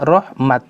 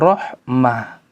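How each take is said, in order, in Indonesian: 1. Kata ini berakhir dengan bunyi t. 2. Kata ini berakhir dengan bunyi h. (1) "kalau ditulis dengan ta maftuhah berhentinya rahmat" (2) "Kalau ditulis dengan ta marbutoh maka bacanya rahmah"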